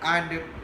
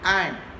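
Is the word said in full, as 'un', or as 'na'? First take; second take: full; full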